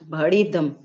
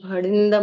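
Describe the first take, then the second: First: No nasal sound comes before the d. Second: A nasal n sound comes before the d. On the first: The speaker calls it right. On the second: The speaker calls it wrong.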